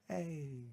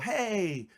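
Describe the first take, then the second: First: It is said with low, subdued energy. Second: It is said with high, enthusiastic energy.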